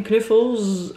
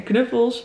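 First: "knuffels" slowed, ending on a drawn-out Z; "knuffels" stretched out with a voiced Z at the end; buzzing Z ending. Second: Said in the usual way. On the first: Shown as a demonstration. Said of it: "ook met een Z".

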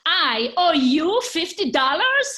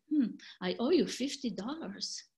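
First: Loud, slow, much higher outraged question; upset disbelief. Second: Settled falling statement with a thoughtful hmm; calm acknowledgement. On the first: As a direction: drag each word out in loud indignant shock. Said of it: "Don't get too upset". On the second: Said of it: "but I use different melody". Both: Acted.

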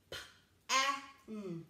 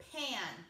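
First: P-A-N as puffed P, short vowel, hummed N; chopped-up sounds. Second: Said in the usual way. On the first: Shown as a demonstration. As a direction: separate each sound in P-A-N. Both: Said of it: "and chop it up".

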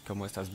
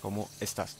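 First: ¿Cómo estás? said slowly and softly; careful ¿Cómo estás? for understanding; slow Spanish demo. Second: ¿Cómo estás? quiet and even; soft repeat of ¿Cómo estás?; quiet correct ¿Cómo estás?; soft Spanish repeat. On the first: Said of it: "pronounce very slowly". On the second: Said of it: "correctly written". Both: Shown as a demonstration.

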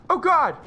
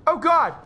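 Both takes have the same delivery.

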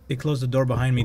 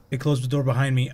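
First: Said in the usual way. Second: Quicker, realizing it; faster repeat. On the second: Real, not acted. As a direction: rush the words out.

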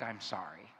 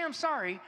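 First: Acted-out apology. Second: Said in the usual way. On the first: Shown as a demonstration. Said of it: "but all I act". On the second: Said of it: "He doesn't say".

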